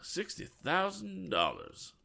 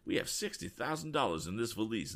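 First: High, slow astonished "sixty thousand dollars"; gasped in amazement. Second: Said in the usual way. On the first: A narrator's reading. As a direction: breathe out the sum in disbelief. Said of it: "gasped Mister Lyon".

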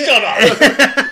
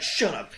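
First: Loud, high yell breaking into laughter; mock angry shout. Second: Dismissive retort with a laugh in it; mildly angry, imitated. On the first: Star snapping at the girl, mock angry shout. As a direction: yell it as an exaggerated angry outburst. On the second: Star hushing the girl, mildly mock angry. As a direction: brush her off, mock irritated. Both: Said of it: "just gets angry about it".

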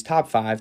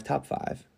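First: Said in the usual way. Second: "top five" whispered as an echo; a hushed whispered repeat of "top five". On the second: Shown as a demonstration.

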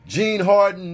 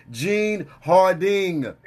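First: "Harden" with a -den ending, no final g; wrong name. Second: "Harding" with a clear -ding ending; corrected name. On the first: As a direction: say "Harden" like the basketball player's name. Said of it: "Yo, that's Gene Harding". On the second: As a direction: stretch out the g at the end of "Harding". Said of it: "we gotta make sure that we say". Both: Shown as a demonstration.

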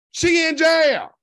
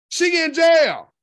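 First: Loud, slow, emphatic. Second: Loud, slow shout. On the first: Repeating news with emphasis. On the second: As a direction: shout it slowly for emphasis. Repeating news, shouting. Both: Real, not acted.

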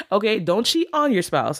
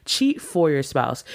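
First: A quick joking "whoa, not that" warning; mock alarmed correction. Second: Slow, with the word "for" leaned on to set it against "on"; stress on for. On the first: Talking to viewers after a punning rule name, mock-alarmed. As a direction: pitch jumps up high in playful alarm. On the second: Correcting viewers on the rule's name, slow and deliberate. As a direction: spell it out deliberately, landing on "for". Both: Shown as a demonstration. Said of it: "I didn't say cheat on your spouse".

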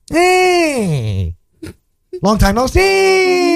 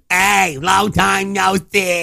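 First: High, long-held greeting call; impression of dad. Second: High, slow, stretched greeting; impression of dad. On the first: Son imitating dad's greeting, high drawn-out call. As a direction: sing out the last word high and stretched. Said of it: "my dad says". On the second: Cohost mimicking friend's dad, high drawn-out greeting. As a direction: copy a dad's drawn-out hello, pitched up. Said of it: "That's exactly what he says".

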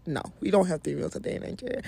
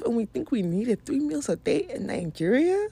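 First: Said in the usual way. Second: Rising doubtful question on Nigeria; mock rhetorical question. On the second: Shown as a demonstration. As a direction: ask it like you don't believe it.

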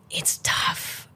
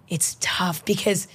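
First: Breathy whisper on tough. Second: Said in the usual way. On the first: Real, not acted. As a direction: drop to a whisper. Sighing over copycats.

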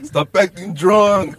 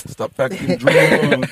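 First: Slow drawn-out scold; mimicking friend. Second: Slow, unvoiced stern "Stop acting drunk."; mimicking stern friend. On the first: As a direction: say it slowly like a fed-up friend. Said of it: "Just the way he said it". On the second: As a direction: imitate a friend scolding a drunk, slowly. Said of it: "he's like".

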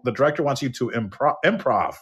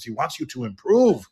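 First: "improv" with a short o, like improvisation; "improv", stressed im, ending in -prov; says improv. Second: "improve" with the oo of improve, /ɪmˈpruːv/; says improve. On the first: Shown as a demonstration. Clearing up the mix-up, "improv" said the correct way. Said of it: "He wanted him to improv". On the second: Retold or imitated. Translator tells the actor to improve, "improve" said like prove. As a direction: translator says "improve" meaning make it better. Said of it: "but he was saying improve".

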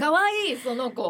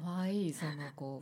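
First: High, loud squeal of delight; gushing. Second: Soft, low murmured repeat; quiet. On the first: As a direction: squeal it like seeing something adorable. Cooing over a cute image. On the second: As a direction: say it softly under your breath. Repeats it to herself softly. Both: Real, not acted.

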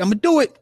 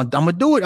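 First: I'm gonna do it, pitched way up and rising; fired-up resolve. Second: Steady, sure, a little raised; a first, measured I'm gonna do it; firm resolve. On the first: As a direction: pump it up, mock-heroic. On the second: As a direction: says he'll do it, calm and decided. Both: Retold or imitated. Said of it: "Gawain was like".

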